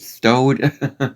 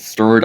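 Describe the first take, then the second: First: The r sound is weak or missing. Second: The r sound is pronounced clearly. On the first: The speaker calls it wrong. "I would have said stowed" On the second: The speaker calls it right. "Instead of saying stirred"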